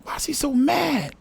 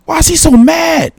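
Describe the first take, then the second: First: Much softer, mostly to himself; muttered repeat. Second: High, puzzled question at the screen; baffled, asking nobody in particular why he's so mad; amused disbelief. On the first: Watching the clip, soft muttered disbelief. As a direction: mumble the same question again under your breath. Repeats the question under his breath. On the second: Reacting to the clip, high disbelieving question. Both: Real, not acted.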